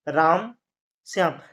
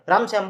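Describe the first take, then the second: First: A short pause separates the two names. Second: The two names run together without a pause. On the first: The names are two separate people in a list. The speaker calls it right. "जो थोड़ा सा हम विराम ले रहे हैं" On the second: The two names sound like one name. The speaker calls it wrong. "Ram Shyam बोल देंगे तो एक ही हो जाएगा"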